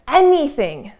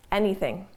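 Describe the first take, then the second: First: "anything" said higher and a bit louder, falling at the end; stress on anything. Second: "anything" repeated softer and lower; soft echo. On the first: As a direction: lean on "anything" to make the point. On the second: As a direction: let "anything" drop into a quiet echo. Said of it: "I want you to consider that anything". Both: Shown as a demonstration.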